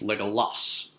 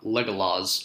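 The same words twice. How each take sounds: First: The final consonant is a hissing S sound. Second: The final consonant is a buzzing Z sound. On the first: The speaker calls it right. "S is always S" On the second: The speaker calls it wrong. "it's not Legolas"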